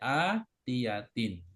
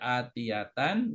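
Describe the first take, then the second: First: The word ends with the sound in. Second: The word ends with the sound an. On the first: "nggak boleh" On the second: "Nggak boleh"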